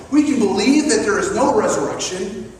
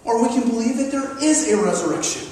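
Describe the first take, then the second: First: "no resurrection" weighted, left open for the alternative; stress on NO. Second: "is" punched against the earlier "no", falling ending; quicker, landing firmly on "is"; stress on IS. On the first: Preacher setting out the first choice, stress on "no". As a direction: lean on "no" as the first option. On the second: Preacher offering the opposite choice, stress on "is". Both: Real, not acted. Contrasts two possible beliefs.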